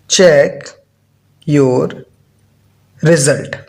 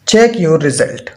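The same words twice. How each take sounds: First: "Check", "your", "result", each set apart by a long pause; word-by-word dictation. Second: Said in the usual way. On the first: Real, not acted. Maths teacher repeating "Check your result" for copying, word-by-word dictation. Repeats phrase slowly while writing it.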